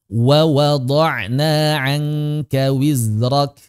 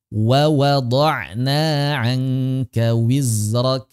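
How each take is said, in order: Both takes have the same delivery.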